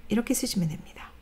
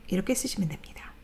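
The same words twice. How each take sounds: Both takes have the same delivery.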